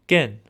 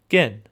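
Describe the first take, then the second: The two takes are said the same way.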